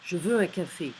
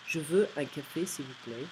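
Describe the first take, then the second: First: Loud blunt demand, falling end; rude. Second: Less rude. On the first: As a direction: bark it like an order. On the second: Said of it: "Less rude". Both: Shown as a demonstration.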